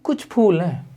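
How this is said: It is said in a negative, disappointed tone. There are only a few flowers, which is too few. "मेरे लहजे ने बता दिया कि मैं यहां पे नेगेटिव हो रहा हूं"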